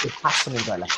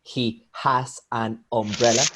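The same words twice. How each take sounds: First: "He has an umbrella" run together as "he ha-za-numbrella"; fuse "has an umbrella" without gaps; connected, flowing "He has an umbrella"; linked sounds. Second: "He has an umbrella" with each word separate, rising at the end; word-by-word "He has an umbrella", no linking; unlinked words. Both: Shown as a demonstration. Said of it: "link sounds all the time".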